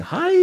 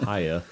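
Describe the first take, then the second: First: Very high mock battle scream; imitated scream. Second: Low-key, softer greeting; casual. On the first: The shirt is screaming it, high mock scream. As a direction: shriek it high, like a cartoon attack. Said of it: "like, screaming". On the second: Retold or imitated. Imitating the lady who just casually said it, offhand. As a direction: toss it off quietly in passing. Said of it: "She just casually said".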